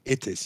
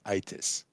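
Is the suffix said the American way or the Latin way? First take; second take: Latin; American. First: The suffix is said with the Latin vowel. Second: The suffix is said with the American vowel. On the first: The speaker calls it right. "is Latin, you say itis" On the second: The speaker calls it wrong. "You don't say itis"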